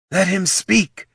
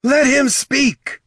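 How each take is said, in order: First: High-pitched call, only moderately raised; insistent call. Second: High, loud, drawn-out command; scream. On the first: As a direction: call it out firmly to the crowd. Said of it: "she called again". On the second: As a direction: scream to silence a mob. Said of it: "Ashurzu screamed". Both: A narrator's reading.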